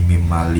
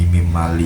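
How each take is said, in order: First: The n merges into a doubled m sound. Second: The same.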